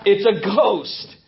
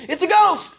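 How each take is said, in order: First: "It's a ghost" said very slowly and heavily; slow, drawn-out telling. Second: High, frightened cry of "It's a ghost"; frightened shriek. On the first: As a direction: let each word sink in slowly. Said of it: "you would have said the same thing". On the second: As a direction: shriek it like terrified fishermen in the storm. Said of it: "they all say". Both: Retold or imitated.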